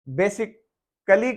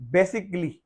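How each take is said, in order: First: An extra vowel is sounded before the final syllable. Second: No extra vowel is sounded before the final syllable. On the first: The speaker calls it wrong. "अमूमन बेसिक कली कहा जाता है" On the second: The speaker calls it right. "अपना pronunciation ठीक करने के बाद पढ़ेंगे"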